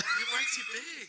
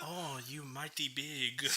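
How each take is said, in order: First: Loud laughing mock Asian accent. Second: Terrible mock Asian accent, slow; a bad, laughing Asian accent. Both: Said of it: "That was a terrible Asian accent".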